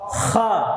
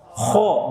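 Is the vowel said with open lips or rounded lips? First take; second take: open; rounded. First: The vowel is open, lips not rounded. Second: The vowel is rounded, lips pushed forward. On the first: The speaker calls it right. "Fathah terbuka tanpa monyong" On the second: The speaker calls it wrong. "nggak boleh monyong"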